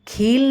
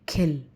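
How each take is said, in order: First: The vowel is said long. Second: The vowel is said short. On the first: The speaker calls it wrong. "खील नहीं कहेंगे" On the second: The speaker calls it right. "जैसे खिल"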